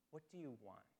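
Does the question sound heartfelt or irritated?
heartfelt. The question sounds warm and sincere. The asker truly cares what they seek. "Or there can be this heartfelt question"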